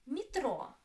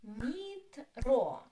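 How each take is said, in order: First: Said in the usual way. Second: "Metro" drawn out, with a louder ro; syllable by syllable. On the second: Shown as a demonstration. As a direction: split "Metro" into two long syllables. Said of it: "Two syllables".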